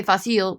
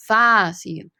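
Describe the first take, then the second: First: Fácil with the stress misplaced on the second syllable, fa-SEEL; fácil with a short first A and stressed ending; mispronounced fácil. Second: Fácil stressed on the first syllable, FAH-seel; correct accent on fácil. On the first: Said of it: "We don't say fácil". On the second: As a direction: lean on the long A of fácil, then drop off. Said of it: "we say fácil". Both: Shown as a demonstration.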